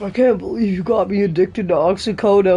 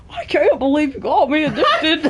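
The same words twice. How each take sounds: First: Lightly put-on voice of a betrayed addict; Eddie Brock. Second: Higher, hammed-up voice of a betrayed addict; Eddie Brock. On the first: Hero accuses his doctor of getting him addicted, lightly voiced. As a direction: do a mild comic-book character voice. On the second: Friend repeats the accusation after being teased, higher and hammed-up. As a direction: exaggerate the character, swinging the pitch up through laughter. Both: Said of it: "Why does he sound like Eddie Brock?".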